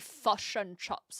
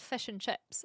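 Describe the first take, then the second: First: The vowel in 'chips' is exaggerated and shifted. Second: The vowel in 'chips' is plain and unexaggerated. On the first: This is how outsiders imitate the accent. The speaker calls it wrong. "like people say" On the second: This is how it is really said. The speaker calls it right. "It's just fish and chips"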